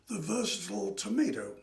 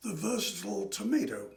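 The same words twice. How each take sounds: First: It is said in an American accent. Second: The same.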